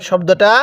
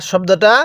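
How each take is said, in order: No difference in how they are said.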